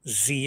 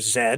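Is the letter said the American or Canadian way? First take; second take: American; Canadian. First: The letter is said the American way. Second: The letter is said the Canadian way.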